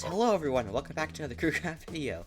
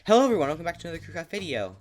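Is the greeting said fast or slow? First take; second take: slow; fast. First: The greeting is spoken at a slower pace. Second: The greeting is spoken very quickly.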